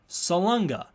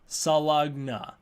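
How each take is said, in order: First: The middle sounds like 'lun-ga'. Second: The middle sounds like 'lug-na'. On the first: The speaker calls it right. "it's written Salunga" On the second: The speaker calls it wrong. "I pronounce it Salugna the entire time"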